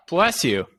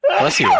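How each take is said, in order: First: Said in the usual way. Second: High-pitched squeaky blessing; high loud bless you. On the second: Real, not acted.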